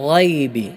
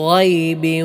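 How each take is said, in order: Both takes have the same delivery.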